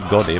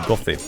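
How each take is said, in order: First: The middle consonant is a plain d sound. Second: The middle consonant is a soft th sound. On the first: The speaker calls it wrong. "it's not supposed to be Godi" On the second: The speaker calls it right. "the proper pronunciation for that is Gothi"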